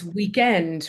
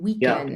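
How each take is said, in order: First: The stress is on the second syllable. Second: The stress is on the first syllable. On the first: "more like the way you're saying it" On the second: "I'm saying weekend with the stress on week"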